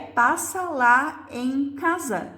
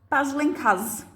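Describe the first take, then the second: First: The first word is said with both syllables. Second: The first word is shortened to one syllable. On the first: "que é passa lá em casa" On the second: "eu não disse todas as palavras"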